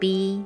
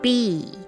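First: The pitch stays level throughout. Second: The pitch falls at the end.

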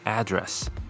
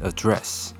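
First: The stress is on the first syllable. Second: The stress is on the second syllable.

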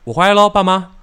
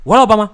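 First: It is said at a steady, unhurried pace. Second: It is said rushed, with the pace sped up.

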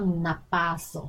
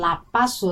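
First: The word is pronounced in a smooth, soft way. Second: The word is pronounced in a rough, coarse way. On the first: The speaker calls it right. "要喇叭手" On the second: The speaker calls it wrong. "那个发音是有点粗"

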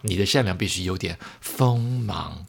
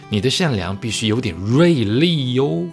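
First: It is said softly and flatly. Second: It is said with force and sharpness.

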